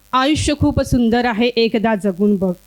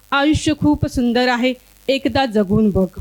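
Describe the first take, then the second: Both takes have the same delivery.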